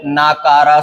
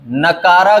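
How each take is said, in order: First: नाकारा with long naa, naa-kaa-raa; correct pronunciation. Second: नकारा with short na, na-kaa-raa; wrong pronunciation. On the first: Teacher correcting it, नाकारा said with long naa. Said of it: "सही है". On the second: Teacher showing the mistake, नकारा said with short na. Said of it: "गलत है". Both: Shown as a demonstration.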